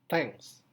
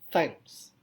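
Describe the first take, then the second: No difference in how they are said.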